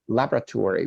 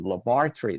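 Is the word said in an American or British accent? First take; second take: American; British. First: It is said in an American accent. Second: It is said in a British accent. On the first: "American and Canadian pronounced with American Canadian pronunciation" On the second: "but in British it would be laboratory"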